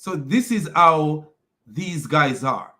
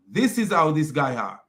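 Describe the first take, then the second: First: Slow, deliberate, stressing this; slow emphasis. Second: Said in the usual way. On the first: Shown as a demonstration. Summing up to viewers, slow and deliberate. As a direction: drag out each word to make the point.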